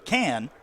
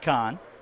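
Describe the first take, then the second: First: The vowel sounds like the one in 'can'. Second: The vowel sounds like the one in 'con'. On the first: The speaker calls it right. "we're being corrected on our pronunciation of DeKoven Can" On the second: The speaker calls it wrong. "not Con"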